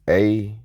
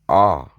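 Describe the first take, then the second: First: The vowel sounds like the one in apple. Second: The vowel is an open ah sound. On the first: It closes your free will. The speaker calls it wrong. "A is not the original sound" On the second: It opens your free will. The speaker calls it right. "Ah is the original sound"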